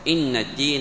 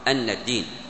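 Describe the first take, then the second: First: The first word begins with an 'i' vowel. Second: The first word begins with an 'a' vowel. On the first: The verse starts a new statement. "فيرون الكسر" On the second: The verse continues the previous verse. "فتحت الهمزة عنده في قراءته"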